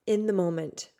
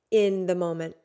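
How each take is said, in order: Both takes have the same delivery.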